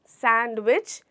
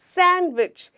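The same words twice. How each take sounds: First: The d sound is clearly pronounced. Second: The d sound is left silent. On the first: The speaker calls it wrong. "सैंडविच नहीं" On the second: The speaker calls it right. "यहाँ पे हमारा डी letter silent है"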